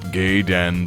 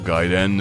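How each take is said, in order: First: The first syllable sounds like 'gay'. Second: The first syllable sounds like 'guy'. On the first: It sounds like the name of a bar. The speaker calls it wrong. "not Gaiden, that burly man bar down the street" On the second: It means side story. The speaker calls it right. "pronounce it properly"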